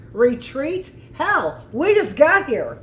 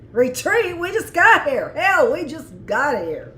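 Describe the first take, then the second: First: High, loud gung-ho captain's comeback; defiant retort. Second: Higher, louder tough-hero delivery; heroic soldier. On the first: Marine captain refusing to retreat, defiant and loud. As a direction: throw it back at them like a bold Marine. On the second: Admirer replaying the tall soldier's line, heroic. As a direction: savour it like a movie hero. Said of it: "something a hero would say". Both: Acted.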